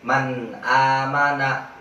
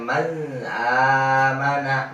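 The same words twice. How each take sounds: First: The n sound is pronounced clearly. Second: The n sound is not pronounced clearly. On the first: The speaker calls it right. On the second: The speaker calls it wrong.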